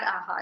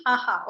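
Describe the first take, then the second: First: Limp ha ha, softer and lower; a joyless, deflated laugh; sad laugh. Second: Bright open ha ha at full voice; happy laugh. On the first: Teacher showing the class their sad laugh, soft and low. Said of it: "I don't want your sad". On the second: Teacher showing the happy laugh she wants, open and full. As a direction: laugh like you mean it. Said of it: "I want your happy". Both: Shown as a demonstration.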